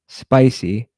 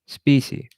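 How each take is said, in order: First: The first vowel sounds like 'eye'. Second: The first vowel sounds like 'ee'. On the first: The speaker calls it right. "he cannot say the word spicy" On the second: The speaker calls it wrong. "He says specy"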